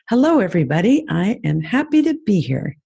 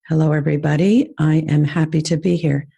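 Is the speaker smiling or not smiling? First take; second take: smiling; not smiling. First: It is said while smiling. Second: It is said without a smile.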